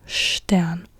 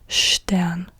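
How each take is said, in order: The two takes are said the same way.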